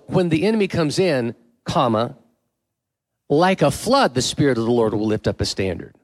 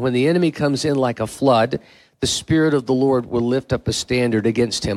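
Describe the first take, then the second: First: The pause comes after the words comes in. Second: The pause comes after the word flood.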